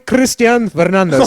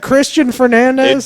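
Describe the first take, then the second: First: The name is said with rolled Spanish R's. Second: The name is said with plain English sounds. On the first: The reporter is showing off Spanish pronunciation. The speaker calls it wrong. "I can roll my R's too" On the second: The name is said simply, without showing off. The speaker calls it right. "You couldn't just say"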